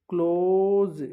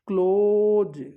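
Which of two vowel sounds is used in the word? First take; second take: accepted vowel; accepted vowel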